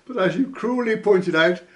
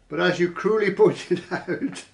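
First: Said in the usual way. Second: Laughing. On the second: Real, not acted. Reading comment, laughing at cruelly.

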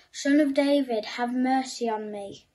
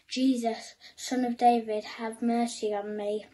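First: Shouting louder. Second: Raised voice calling to Jesus; a blind beggar calling out, raised voice. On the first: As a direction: cry out over the crowd, louder. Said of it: "But he shouted even louder". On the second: Blind man calling to passing Jesus, raised voice. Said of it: "so he began to shout". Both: A narrator's reading.

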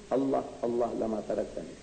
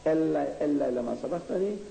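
First: "Allah, Allah lama taraktani" said as Arabic, weight on "Allah", falling at the end; Arabic pronunciation. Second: "Allah, Allah lama sabaqtani" said as Hebrew, ending "sabaqtani" on a rise; Hebrew pronunciation. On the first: Lecturer contrasting it with the Arabic wording, falling on "taraktani". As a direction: recite the Arabic line "Allah, Allah lama taraktani" with a settling fall. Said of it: "in Arabic". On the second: Lecturer showing the audience the Hebrew wording, rising on "sabaqtani". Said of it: "in Hebrew". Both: Shown as a demonstration.

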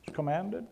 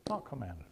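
First: Said in the usual way. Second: Dropped contrast. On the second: Shown as a demonstration. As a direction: lower and softer, the counter view. Contrasting two views.

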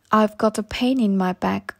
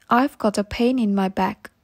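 The two takes are said the same way.

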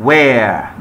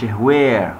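First: Where said as "wer", no h; silent h. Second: Where said as "hwer"; wrongly sounded h. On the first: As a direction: open where straight on w. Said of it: "where مش where". (where من غير هاء) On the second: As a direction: put an h before the w of where. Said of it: "مش where". (where بهاء منطوقة في الأول) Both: Shown as a demonstration.

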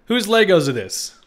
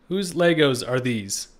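First: Loud, high and slow, stretching "Legos"; astonished question. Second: Said in the usual way. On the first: Real, not acted. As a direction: disbelief at what he sees. First take, shocked at Legos.

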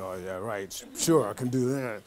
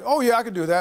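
First: Much lower and softer, sarcastic aside; doubting inner voice. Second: Upbeat, higher and louder, eager to please; brightly confident promise on the phone; eager yes. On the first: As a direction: mutter it to yourself, unsure. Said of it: "It's like". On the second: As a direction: chirp it like a keen yes-man. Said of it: "And I was like". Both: Retold or imitated.

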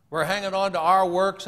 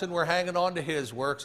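First: "our" pushed out louder; stress on OUR. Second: "his" set apart with emphasis; stress on HIS. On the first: Preacher contrasts two kinds of works, stressing "our". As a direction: lean hard on the word "our". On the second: Preacher contrasts two kinds of works, stressing "his". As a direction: point up the word "his". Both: Real, not acted.

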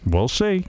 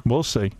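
First: "We'll see" lifted higher with a knowing rise; teasing. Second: Said in the usual way. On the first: Shown as a demonstration. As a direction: tease him with a sly rising "We'll see".

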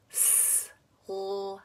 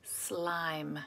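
First: "Slime" quietly split into s, l, i, m; sound by sound. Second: Said in the usual way. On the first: Shown as a demonstration. Teacher sets a blending puzzle, "Slime" segmented. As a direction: pause between each sound of "Slime". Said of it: "say the sounds of the word". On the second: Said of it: "you're gonna put it together".

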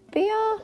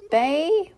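First: "Bea" said high and loud, with an "ee" vowel; unsure pronunciation "Bea". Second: "Bay" said loud and high, with an "ay" vowel; unsure pronunciation "Bay". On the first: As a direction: try out "Bea" questioningly, starting like bee. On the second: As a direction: try out "Bay" questioningly, rhyming with day. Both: Real, not acted. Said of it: "Is it Bay or Bea?".

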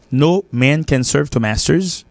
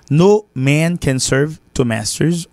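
First: Slow, careful English proverb; teacher models each word slowly for the class; slow model reading. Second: Slow model reading. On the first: Teacher to learners, slow clear demo. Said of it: "nous pas pour rien afficher". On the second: Teacher repeating the proverb for students, slow and deliberate. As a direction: spell out the proverb for learners. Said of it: "On ne peut pas servir deux maîtres à la fois". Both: Shown as a demonstration.

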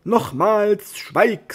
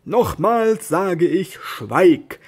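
First: Much higher, louder shout; angry shout. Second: Slow, louder and higher angry order; a knight ordering his squire to be silent, slow and angry; angry command. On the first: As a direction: snap the order at full voice. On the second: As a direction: draw out the command, then bark schweig. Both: Acted. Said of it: "Don Quixote wurde ernstlich böse".

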